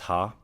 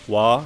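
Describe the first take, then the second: First: The syllable starts with an h sound. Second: The syllable starts with a w sound. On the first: It is read as a plain character. "when you read it as a character, it's pronounced as ha" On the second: It is used as the topic-marking particle. "the grammar particle, wa"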